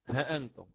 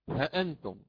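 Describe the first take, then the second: The two takes are said the same way.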